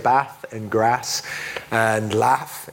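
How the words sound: It is said in a Midlands English accent.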